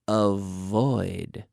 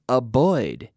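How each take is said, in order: First: The V sound is clearly pronounced. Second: The V sound is not clearly pronounced. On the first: The speaker calls it right. "pronounce the V properly" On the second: The speaker calls it wrong. "not avoid"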